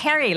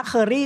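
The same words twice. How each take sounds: First: "Kerry" with an open e, rhyming with Jerry; English pronunciation. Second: "Curry" said the Thai way, like kuh-ree; Thai-style curry. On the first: Teacher correcting the brand name for the host, English pronunciation. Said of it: "it's pronounced as Kerry". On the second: Teacher showing how Thais say the brand name, Thai-style pronunciation. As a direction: say "Curry" with the Thai vowel, not the English one. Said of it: "But actually it's pronounced as Kerry". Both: Shown as a demonstration.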